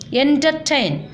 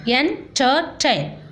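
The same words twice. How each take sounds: First: Said in the usual way. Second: "entertain" split slowly into three separate syllables; teacher dividing "entertain" into syllables. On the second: Shown as a demonstration. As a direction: say "entertain" in slow pieces, a gap between each. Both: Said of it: "syllabi with the following words".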